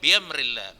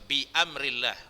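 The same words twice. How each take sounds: First: The hamzah is dropped and the sounds run together. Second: The hamzah is sounded with a clear glottal catch. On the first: The speaker calls it wrong. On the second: The speaker calls it right.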